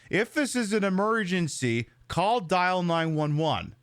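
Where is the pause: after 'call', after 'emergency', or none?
after emergency. The pause comes right after the word emergency. "has chosen to ignore the comma and reads it off as"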